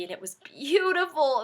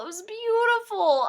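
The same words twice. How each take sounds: First: Said in the usual way. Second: Gushing. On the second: Real, not acted.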